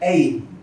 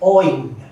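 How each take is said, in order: First: The vowel sounds like 'ay'. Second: The vowel sounds like 'oy'. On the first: This is how other regions pronounce it. "Some parts they'll say Ain / Ейн" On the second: This is how Bengalis pronounce it. "Bengalis will say Oin"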